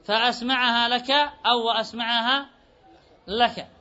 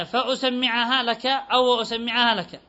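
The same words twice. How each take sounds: First: فأسمعها as fa-asma‘ahā, وأسمعها as wa-asma‘ahā; single mim, fatha hamza. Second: فأسمعها as fa-usammi‘ahā, وأسمعها as wa-usammi‘ahā; u on the hamza, long doubled m in فأسمعها and وأسمعها; doubled mim, damma hamza. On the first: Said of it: "وإذا فتحت الهمزة تخفف الميم". (فأسمعها ووأسمعها بفتح الهمزة وتخفيف الميم) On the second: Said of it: "إذا شددت الميم ضميت الهمزة". (فأسمعها ووأسمعها بضم الهمزة وتشديد الميم) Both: Shown as a demonstration.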